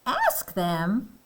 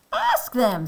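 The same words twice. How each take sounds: First: "Ask them" as a rising question; doubtful question. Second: "Ask them" higher, with a falling end; firm confirmation. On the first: Elephant questions Piggy's suggestion. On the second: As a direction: state "Ask them" as Piggy's confident answer. Piggy confirms the suggestion. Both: Acted.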